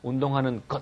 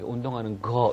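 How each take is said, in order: First: The last word ends with a clipped consonant. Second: The last word ends with an open vowel. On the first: "운동하는 것 이렇게 안 하는 게" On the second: "사투리이기 때문에"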